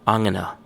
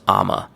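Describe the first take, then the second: First: The phrase is more strongly reduced. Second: The phrase is squeezed into two syllables. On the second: "I'm gonna becomes I'ma"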